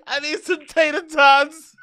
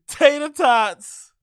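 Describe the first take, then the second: First: High, slow words stretched through laughter; laughing. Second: Slow, high, drawn-out words through laughter; laughing. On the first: Mocking a fan's order, laughing hard. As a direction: giggle out the order. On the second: Repeating the funny order to chat, laughing. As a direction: stretch it out while cracking up. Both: Real, not acted.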